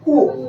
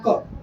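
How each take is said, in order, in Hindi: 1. इस अक्षर में लंबा 'oh' स्वर है। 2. इस अक्षर में छोटा 'uh' स्वर है। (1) "इसको पढ़ना क्या चाहिए" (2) "लेकिन मैं इसको क्या पढ़ रहा हूं"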